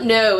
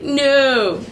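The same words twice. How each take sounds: First: Said in the usual way. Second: Drawn-out Aussie "no", vowel sliding; exaggerated Aussie "no"; Australian accent. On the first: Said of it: "it's not no". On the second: Shown as a demonstration. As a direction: stretch "no" slowly in an Australian accent. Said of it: "it's like, no".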